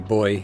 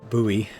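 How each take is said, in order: First: It is said with a British pronunciation. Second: It is said with an American pronunciation. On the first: "we say boy in England" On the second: "as the Americans say"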